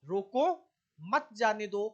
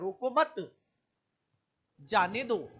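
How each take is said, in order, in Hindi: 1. 'roko' के ठीक बाद विराम है। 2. 'mat' के ठीक बाद विराम है। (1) "अगर रोको के बाद हमने कोमा लगाया" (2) "रोको मत के बाद कोमा लगाया"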